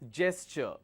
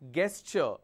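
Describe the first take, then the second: First: The word begins with a j sound. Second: The word begins with a hard g sound. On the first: The speaker calls it right. "It's a j sound" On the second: The speaker calls it wrong. "It's not gesture. never mispronounce this as gesture. not a g sound"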